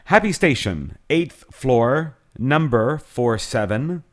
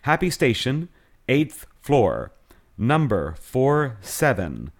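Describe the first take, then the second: First: It is said fast. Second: It is said slowly.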